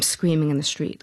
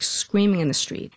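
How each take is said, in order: First: Said in the usual way. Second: SCREAMING pushed higher for emphasis; stress on SCREAMING. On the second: Real, not acted. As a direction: lean hard on the word SCREAMING. Repeats the phrase for emphasis.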